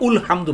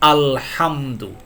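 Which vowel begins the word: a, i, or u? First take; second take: u; a. First: The word begins with a u vowel. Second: The word begins with an a vowel. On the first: The speaker calls it wrong. "উলহামদু পড়েন না" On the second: The speaker calls it right. "আপনাকে চক্ষু বন্ধ করে আ পড়তে হবে"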